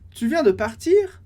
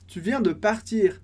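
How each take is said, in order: First: The voice rises at the end. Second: The voice falls at the end. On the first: It asks whether you just left. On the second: It states that you just left.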